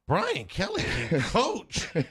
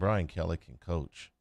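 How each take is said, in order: First: It is said with surprised, ironic emphasis. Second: It is said plainly, as a simple affirmation. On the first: It is unexpected that the coach is good. "but when you say" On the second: The coach is good.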